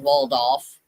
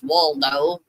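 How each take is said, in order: First: The name ends in an f sound. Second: The name ends in a vowel sound. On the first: "its proper enunciation" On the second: "Some pronounced it as Waldo"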